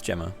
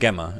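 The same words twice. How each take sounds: First: It begins with a soft G sound. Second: It begins with a hard G sound. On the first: The speaker calls it right. "It's a soft G" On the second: The speaker calls it wrong. "not a hard G"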